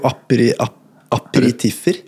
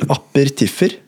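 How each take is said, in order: First: The word has five syllables, with an i sound. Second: The word has four syllables, without an i sound. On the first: The speaker calls it right. "men det heter jo aperitiffer" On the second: The speaker calls it wrong. "Jeg sa vel apertiffer"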